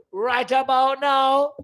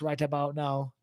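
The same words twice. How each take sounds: First: High, loud, slow Jamaican catchphrase; Jamaican accent. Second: Said in the usual way. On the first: Acted. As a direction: draw it out in a put-on Jamaican accent. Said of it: "use the Jamaican accent".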